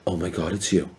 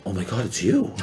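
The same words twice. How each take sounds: First: Soft, stunned recognition; retold hushed awe. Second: Soft parody of a fan, rising at the end; mock echo of awe. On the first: Woman spotting Survivor player at a store, hushed awe. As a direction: imitate a fan saying it under her breath. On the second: Survivor player echoing the starstruck woman, mock awe. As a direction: echo her awe back as a joke. His joking echo of her.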